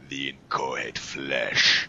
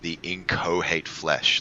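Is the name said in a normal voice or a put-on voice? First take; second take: put-on; normal. First: It is said in a put-on, performed voice. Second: It is said in an ordinary speaking voice.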